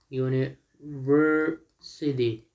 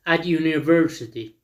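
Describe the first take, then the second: First: UNIVERSITY very slowly, in separated chunks; syllable by syllable. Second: Said in the usual way. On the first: Shown as a demonstration. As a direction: break "university" into uni-ver-sity for learners. Teacher breaks word into syllables.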